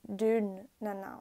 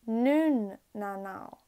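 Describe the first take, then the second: First: The first word begins with a D sound. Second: The first word begins with an N sound. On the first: "instead of" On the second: "If I have to use R, I would say it like"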